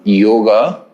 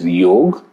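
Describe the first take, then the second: First: The word ends with an added final a vowel. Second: The word ends on a consonant, no final vowel. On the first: This form is for easy universal pronunciation. The speaker calls it wrong. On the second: This is the traditional Sanskrit form. The speaker calls it right.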